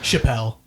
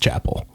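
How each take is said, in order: First: The name is given a French-sounding pronunciation. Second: The name is given a plain English pronunciation. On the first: The speaker calls it wrong. "Someone says Chappelle. ... Chappelle would be French" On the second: The speaker calls it right. "it's Chapel. ... It's definitely Chapel"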